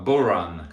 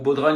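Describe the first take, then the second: First: The word is pronounced the Gaelic way. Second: The word is pronounced the French way.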